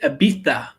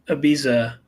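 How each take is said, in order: First: The z is said like a th. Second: The z is said like an s. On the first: "but they say Ibiza" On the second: "I always thought it was Ibiza"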